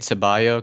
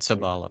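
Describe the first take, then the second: First: The last consonant is a y sound. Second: The last consonant is an l sound. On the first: The speaker calls it wrong. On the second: The speaker calls it right.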